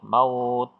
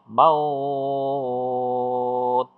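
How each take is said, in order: First: The vowel is held for two counts. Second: The vowel is held for six counts.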